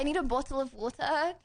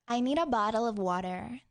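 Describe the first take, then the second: First: It is said in a non-American accent. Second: It is said in an American accent.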